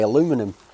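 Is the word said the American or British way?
American. The word is said the American way. The speaker calls it right. "I like to say aluminum"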